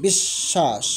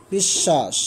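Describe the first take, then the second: First: বিশ্বাস said as bish-sha, doubled sh; বিশ্বাস with a held double sh, lower; model word. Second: বিশ্বাস said as bish-sha, double sh; বিশ্বাস repeated, lower and falling; repeat of model. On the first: Teacher models বিশ্বাস for students, doubled sh. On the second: Teacher repeats বিশ্বাস for students, doubled sh. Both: Shown as a demonstration. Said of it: "তালব্য স্বর দুইবার উচ্চারিত হবে".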